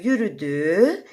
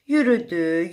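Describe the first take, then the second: First: Slower, stretched with a rising end; drawn-out walking. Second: Said in the usual way. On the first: A narrator's reading. Bear walking on and on, slowly drawn out. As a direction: draw it out like a long walk.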